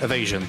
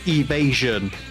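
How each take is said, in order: First: The word is said at ordinary casual volume. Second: The word is said loudly and clearly enunciated. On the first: "How I how I how I would normally say it" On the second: "like loudly for the microphone to pick up"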